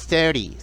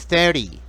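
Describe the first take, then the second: Both takes have the same delivery.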